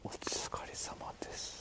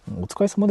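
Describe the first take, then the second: First: Breathy unvoiced whisper. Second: Said in the usual way. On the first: Shown as a demonstration. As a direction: whisper the greeting under your breath. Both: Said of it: "って言っちゃいけないんだっけ".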